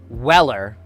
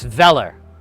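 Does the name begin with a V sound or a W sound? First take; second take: W sound; V sound. First: The name begins with a W sound. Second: The name begins with a V sound. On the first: The speaker calls it wrong. "So it's not Weller" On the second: The speaker calls it right. "it's Veller"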